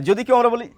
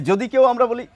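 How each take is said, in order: The two takes are said the same way.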